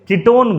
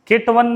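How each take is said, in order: First: The ending sounds like 'own', not 'one'. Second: The ending sounds like the word 'one'. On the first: The speaker calls it right. "कीटोन बोलते हैं" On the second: The speaker calls it wrong. "केटवन नहीं बोलते हैं इसको"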